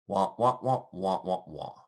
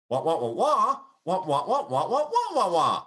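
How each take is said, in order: First: Falling, fading nonsense syllables; story going down. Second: High, laughing, rising wah syllables; excited upward nonsense syllables; story going up. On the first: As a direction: let the wahs sag and fade out. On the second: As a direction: bounce the wahs up with glee. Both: Shown as a demonstration. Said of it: "like Charlie Brown's teacher".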